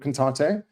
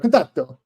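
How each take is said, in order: First: The name is said in a plain, unaccented way. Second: The name is said with an exaggerated Italian accent. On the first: "I call it contato" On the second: "an Italian would go contatto"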